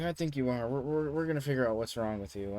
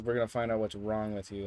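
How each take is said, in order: First: Put-on slightly raised voice for the girl; imitated insistent girl. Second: Retold bluntly in the usual voice; flat-out statement. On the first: Girl announcing she'll diagnose her study partner, mildly imitated insistence. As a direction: lightly voice her, pushing the diagnosis. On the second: Storyteller repeating the girl's verdict, blunt and matter-of-fact. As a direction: state it straight, without the raised girl's voice. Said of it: "she flat out says".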